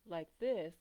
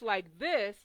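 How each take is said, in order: First: The voice is very low and quiet. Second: The voice is loud and raised. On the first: The speaker is hard to hear. "If you talk really low like this" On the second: The speaker seems to be screaming. "If you raise your voice like this"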